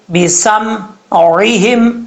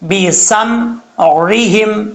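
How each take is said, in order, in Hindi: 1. बीच का व्यंजन गले से निकलने वाली ain आवाज़ है। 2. बीच का व्यंजन गले से निकलने वाली ain आवाज़ है।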